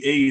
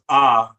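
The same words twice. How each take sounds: First: The letter is said with its English sound. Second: The letter is said with its Nuwaubic sound. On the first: "We would say A in English" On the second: "it's pronounced A as an opposite in Wabi"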